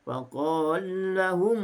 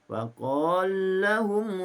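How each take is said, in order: First: The merged vowel is held for two beats. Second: The merged vowel is held for two beats.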